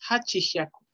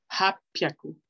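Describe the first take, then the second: First: The middle has a full 'chi' syllable. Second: The middle has a doubled 'p' sound. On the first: The speaker calls it wrong. "No se dice Hachihyaku" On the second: The speaker calls it right. "Se dice Hapyaku. ... una pequeña tsu que duplica el siguiente sonido consonántico"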